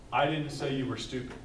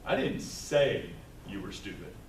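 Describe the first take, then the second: First: "I" stressed at the start of "I didn't say you were stupid". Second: "I didn't say you were stupid" said lower and falling; shifted stress. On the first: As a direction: lean on "I". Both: Shown as a demonstration. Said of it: "by moving what word I'm emphasizing".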